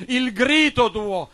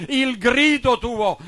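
No difference in how they are said.

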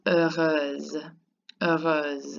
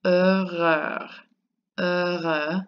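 First: HEUREUSE ending in a drawn-out Z sound; long Z. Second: HEUREUX with an open vowel ending, no Z; masculine pronunciation. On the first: French teacher models the second form, long Z ending HEUREUSE. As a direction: hold a long Z at the end of HEUREUSE. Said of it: "It's like a long Z". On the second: French teacher models the first form, masculine HEUREUX without Z. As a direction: end HEUREUX on the vowel, silent X. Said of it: "the first one is pronounced". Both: Shown as a demonstration.

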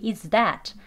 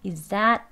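First: "is that" with a clear th in "that"; two separate words. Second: "Is that" merged into "izzat"; linked pronunciation. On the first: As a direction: keep "is" and "that" apart. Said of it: "두 개가요". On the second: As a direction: slide "Is" straight into "that", th lost. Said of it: "또 연음되면요". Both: Shown as a demonstration.

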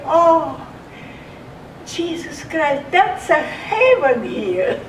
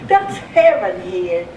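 First: Raised, marvelling exclamation of relief; awed relief. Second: Chuckling, back to her usual pitch; laughing repeat. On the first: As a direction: gasp it out like finally reaching heaven. Lying in a feather bed, grateful. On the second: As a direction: laugh it out, savouring the memory. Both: Retold or imitated.

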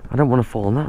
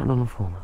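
First: Said in the usual way. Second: Much softer, muttered repeat; muttered under breath. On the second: Real, not acted. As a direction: say it again under your breath.

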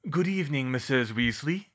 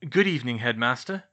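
First: Lightly voiced old headmaster, raised pitch; Dumbledore's voice. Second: Loud, trying-too-hard innocence; overly innocent. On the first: Dumbledore surprises the twins with a greeting, light headmaster voice. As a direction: greet them as a composed headmaster. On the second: Twins caught out by the headmaster, overly innocent greeting. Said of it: "trying too hard to sound innocent". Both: A narrator's reading.

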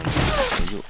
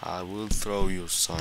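First: "Throw you" jumped way up high, rising at the end; mocking high-pitched "Throw you"; squeaky repeat. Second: Said in the usual way. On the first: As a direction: squeak the threat up high like a cartoon.

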